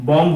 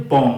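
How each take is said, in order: First: বম্ব with a b after the m; final b wrongly sounded. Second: বম ending on m, no b; silent b. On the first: Teacher showing the mistake, বম্ব with b pronounced. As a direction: close বম্ব on an audible b. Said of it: "বম্ব হবে না". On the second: Teacher correcting students, বম with the b silent. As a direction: close বম on the m alone. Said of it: "উচ্চারণটা হবে বম". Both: Shown as a demonstration.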